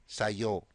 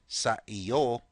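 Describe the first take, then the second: First: The words are contracted into one short word. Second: The two words are said fully and separately. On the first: "you may say sayo" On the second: "Instead of saying sa iyo"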